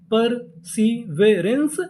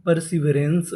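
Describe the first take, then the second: First: Very slow perseverance, drawn out with a rise at the end; slow sounding out. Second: Said in the usual way. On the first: Shown as a demonstration. Teacher slowly blending the codes into the word for students. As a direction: pull perseverance apart, piece by piece. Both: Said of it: "तो पूरी meaning क्या बनी?".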